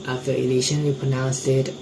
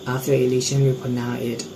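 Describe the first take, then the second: The two takes are said the same way.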